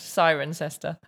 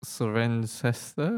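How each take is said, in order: First: Cirencester said as SY-ren-ses-tuh; correct British pronunciation. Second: Cirencester tried slowly as suh-REN-ses-tuh; low, slow, questioning suh-ren-SES-ter for Cirencester; hesitant mispronunciation. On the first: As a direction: model Cirencester, stressing SY at the front. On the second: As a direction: guess at Cirencester, stressing REN. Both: Shown as a demonstration. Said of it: "Oh, so close".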